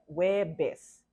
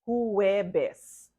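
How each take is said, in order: First: The first syllable is dropped entirely. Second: The first syllable is fully pronounced. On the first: The speaker calls it right. "sounds like Webes" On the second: The speaker calls it wrong. "You do not say Huwebes"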